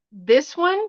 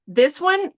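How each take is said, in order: Both takes have the same delivery.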